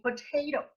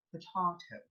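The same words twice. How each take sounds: First: POTATO with an AY, "po-tay-to"; "po-TAY-to", long A in potato; American-style pronunciation. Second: POTATO with a broad AH, "po-tah-to"; broad British A in potato; British pronunciation. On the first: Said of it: "we Filipinos like to say". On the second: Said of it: "but in Britain". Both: Shown as a demonstration.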